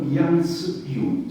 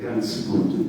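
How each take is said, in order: First: It is said in the Rhineland dialect way. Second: It is said in a more standard German way. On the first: "Nella parte più ristretta della Renania ... dicevano Jans gut, il dialetto nel dialetto" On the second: "non dicevano Jans, eh, ganz gut"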